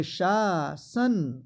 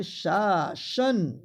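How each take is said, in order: First: शासन as slow "shaa-san"; sh first, clean s second in शासन; correct pronunciation. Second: शासन as slow "shaa-shan"; sh in both syllables of शासन; higher, drawn-out शासन with doubled sh; wrong pronunciation. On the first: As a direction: draw out शासन, hissing the second syllable. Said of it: "पहला तालव्य स और दूसरा दंत स". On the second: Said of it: "ये गलत है". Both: Shown as a demonstration.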